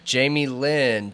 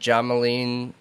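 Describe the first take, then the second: First: The name begins with a full 'Jamie' sound. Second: The name begins with a short 'Jam' sound. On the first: The speaker calls it right. "I think it's Jamie Lynn" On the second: The speaker calls it wrong. "I'm sure I'm saying that wrong"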